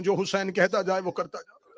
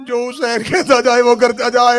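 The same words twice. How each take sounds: First: Said in the usual way. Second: Loud repeat. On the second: Acted. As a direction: hammer the line to the crowd. Repeat raised to full force. (دوبارہ بلند آواز سے)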